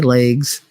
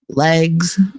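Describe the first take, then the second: First: It is said in a New Jersey accent. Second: It is said in a standard American accent. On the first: "I'm from Jersey. I say legs" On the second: "I don't say legs"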